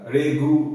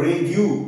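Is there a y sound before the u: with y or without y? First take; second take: without y; with y. First: No y sound comes before the u. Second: A y sound comes before the u. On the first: The speaker calls it wrong. "এই ইয়টাকে consider করতাম না" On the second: The speaker calls it right. "ইউ একটা ইয় চলে আসছে"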